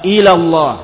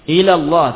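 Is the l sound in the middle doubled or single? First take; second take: single; single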